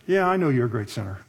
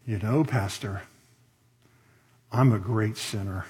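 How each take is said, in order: First: Said in the usual way. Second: Very spiritual tone. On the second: Acted. Lady humbly confessing to her preacher, very spiritual tone. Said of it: "in a very spiritual tone".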